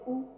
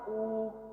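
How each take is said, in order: First: The vowel is held briefly. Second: The vowel is held longer. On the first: "छोटा ऊ है तो कहेंगे" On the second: "बड़ा आ गया तो"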